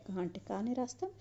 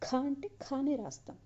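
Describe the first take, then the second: First: క and కానే said lightly, no breath puff; teacher's light క, without throat stress; light unaspirated క. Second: ఖ and ఖానే pushed hard with a puff, higher; forceful ఖ from the throat; stressed aspirated ఖ. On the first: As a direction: keep the క in "కానే" easy and unaspirated. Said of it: "తేలిగ్గా మాత్రమే పలికాం". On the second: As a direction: punch the breathy ఖ in "ఖానే". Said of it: "ఒత్తి పలుకుతున్నాం". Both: Shown as a demonstration.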